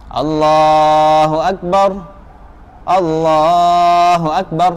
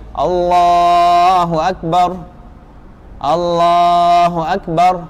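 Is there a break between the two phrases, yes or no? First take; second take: yes; yes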